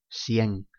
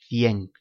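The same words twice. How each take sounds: First: The c sounds like an s. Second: The c sounds like English th.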